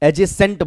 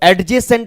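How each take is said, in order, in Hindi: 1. j से पहले कोई d ध्वनि सुनाई नहीं देती। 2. j से पहले एक अलग d ध्वनि सुनाई देती है। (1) "डी साइलेंट रहेगा, एजेसेंट बोलोगे" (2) "तो एडजेसेंट ना बोलोगे"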